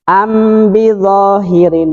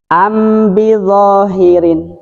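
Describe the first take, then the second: No difference in how they are said.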